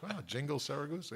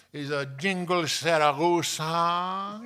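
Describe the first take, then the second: First: Said in the usual way. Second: Loud, high, slow mock Spanish accent. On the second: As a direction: announce it with a drawn-out Spanish accent. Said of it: "She's talking like that".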